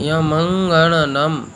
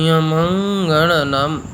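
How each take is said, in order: The two takes are said the same way.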